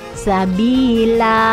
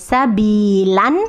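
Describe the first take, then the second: First: The word ends with a long open vowel. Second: The word ends with a short vowel plus n. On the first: The speaker calls it right. "tapi sabila gitu ya" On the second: The speaker calls it wrong. "bukan sabilan"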